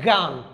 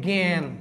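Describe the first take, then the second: First: The vowel is an open 'a' sound. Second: The vowel is an 'e'-like sound. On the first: The speaker calls it wrong. "এটা কেউ বলে না গান" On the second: The speaker calls it right. "এটাকে সবাই বলে যে জ্ঞান"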